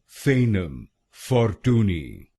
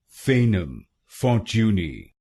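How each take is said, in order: First: It is said with an American pronunciation. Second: It is said with a British pronunciation.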